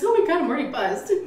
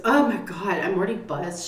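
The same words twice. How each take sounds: First: High, fast quote of a tipsy mom; imitated tipsy mother. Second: Said in the usual way. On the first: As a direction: mimic mom giddily admitting she's tipsy. Repeats tipsy mother's quote, higher.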